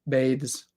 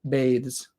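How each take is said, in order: Both takes have the same delivery.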